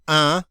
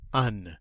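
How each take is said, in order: First: The word is said alone, with no linking N. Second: The N is sounded, ready to link forward. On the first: The speaker calls it wrong. "not un" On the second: The speaker calls it right. "this one starts with a vowel. So we're going to pronounce that ... but un"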